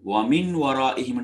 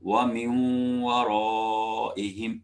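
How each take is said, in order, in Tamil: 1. n ஒலி மூக்கொலி இணைப்பின்றி தனியாக உள்ளது. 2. n ஒலி w உடன் மூக்கொலியுடன் இணைகிறது.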